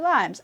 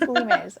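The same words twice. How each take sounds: First: It is said like the fruit name limes. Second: It is said unlike the fruit name limes. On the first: The speaker calls it wrong. "It looks like limes. Why would it not be limes?" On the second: The speaker calls it right. "Oh, it's limes"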